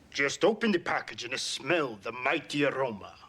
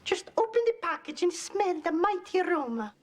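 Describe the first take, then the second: First: It is said in a male voice. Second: It is said in a female voice.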